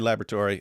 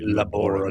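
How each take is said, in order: First: It is said in a plain, ordinary way. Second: It is said in a dramatic mad-scientist way.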